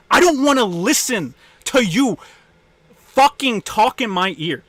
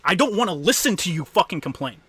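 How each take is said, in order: First: Much higher and louder, furious; real exasperated yelling; angry shout. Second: Said in the usual way. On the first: Real, not acted. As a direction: yell it at them, fed up. Angry rant at complainers.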